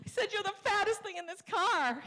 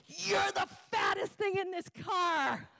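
First: Very high, mock tearful wail; hammed-up crying voice, much higher; bawling wife. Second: High, drawn-out mock shout; hammed-up, high-pitched furious outburst; wife lashing out. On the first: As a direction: imitate wife confessing through sobs. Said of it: "And she's bawling". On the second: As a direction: imitate wife shrieking an insult slowly. Retold wife lashing out at husband.

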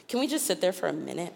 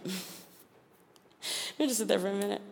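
First: Said in the usual way. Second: Hushed and slowed, almost breathless; soft, slow, awed repeat. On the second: Shown as a demonstration. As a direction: let it sink in quietly.

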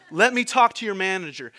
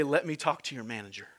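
First: Loud, indignant demand for the manager; louder mock demand; demanding customer. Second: Said in the usual way. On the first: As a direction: push like an irate customer.

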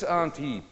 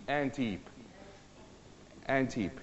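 First: "ant" in "ant heap" with a long ah; broad-vowel ant heap. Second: "ant" in "ant heap" with a short front a; short-vowel ant heap. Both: Shown as a demonstration. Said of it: "saying it in the right accent".

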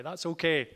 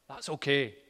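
First: That's okay called out louder and higher; rally the men with That's okay; men rallying cry. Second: Said in the usual way. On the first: Real, not acted. Preacher rallying the men in the room, louder call. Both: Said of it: "Just a bit of a men rallying cry".

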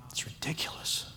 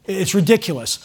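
First: Breathy whisper. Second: Said in the usual way. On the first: Real, not acted. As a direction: whisper it close to the mic. Repeated as a whisper.

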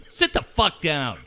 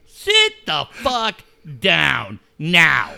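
First: Said in the usual way. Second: "Sit the fuck down now" dragged out, every word spaced; slow emphatic. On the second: Real, not acted. Host repeats his order to the coach, slow and emphatic. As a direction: spell out "Sit the fuck down now" slowly and hard.

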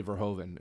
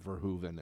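First: VERHOEVEN said ver-HOH-ven; own OH pronunciation. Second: VERHOEVEN said ver-HOO-ven; others' OO pronunciation. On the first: Shown as a demonstration. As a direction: say Verhoeven with a long OH. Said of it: "I always say Verhoeven". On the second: Retold or imitated. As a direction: say Verhoeven with an OO in the middle. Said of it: "other people saying Verhoeven".

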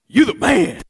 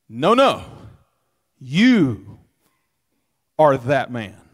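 First: Laughing, high and loud "You the man" like a buddy's compliment; casual praise. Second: Loud, weighty "you are that man", stress on "you"; stern accusation. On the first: Preacher showing the wrong reading, jokey praise. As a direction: hype up a friend with a grin. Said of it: "He's not saying". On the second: Preacher showing the right reading, stern accusation. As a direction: lay the blame squarely on him. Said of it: "He's saying". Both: Shown as a demonstration.

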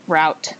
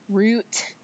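First: "route" said with an OW vowel, like "rout"; "route" with the vowel of "cow"; route rhyming with out. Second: "route" said like "root", with a long OO; "route" with a long, leaned-on OO vowel; Minnesota-style route. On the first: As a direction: say "route" to rhyme with "out". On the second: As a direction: draw out "route" as a louder, higher "root". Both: Real, not acted. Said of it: "talking like I'm from Minnesota".

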